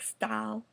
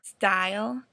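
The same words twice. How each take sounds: First: It is said in a Southern US accent. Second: It is said in her usual accent.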